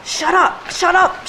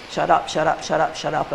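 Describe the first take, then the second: First: "Shut up" yelled high and loud; angry shout. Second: "Shut up" spoken with the stress on "up"; iambic scansion. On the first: Acted. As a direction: bark "Shut up" at the lover in a rage. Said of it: "Notice how iambic it is". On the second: Shown as a demonstration. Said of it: "It is iambic pentameter quite strictly".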